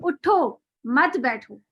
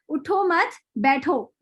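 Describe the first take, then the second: First: The pause comes after 'उठो'. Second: The pause comes after 'मत'.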